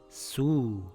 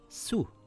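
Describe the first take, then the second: First: The vowel is held for two counts. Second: The vowel is held for one count. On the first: "The waw stretches the dhamma" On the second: "If the sin has a dhamma"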